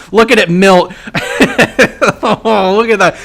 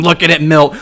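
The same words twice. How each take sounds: First: Louder, gleeful repeat; excited. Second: Said in the usual way. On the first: Real, not acted. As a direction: cheer it on as it dies. Watching the enemy unit die.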